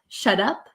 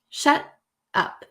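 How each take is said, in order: First: The t sounds like a soft d. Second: No t is heard, just a short break. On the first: "sounds like a soft D sound" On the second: "there's like a breath in between and no T is pronounced"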